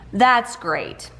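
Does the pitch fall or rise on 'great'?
fall. The pitch falls flatly on 'great'. The speaker is not happy and is being sarcastic. "I inflect it downward"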